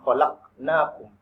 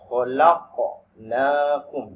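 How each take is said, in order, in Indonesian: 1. Bunyi q biasa, tanpa pantulan. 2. Bunyi q memiliki pantulan seperti gema. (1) "tidak boleh dibaca dengan khalaqnakum" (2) "ada suara memantul"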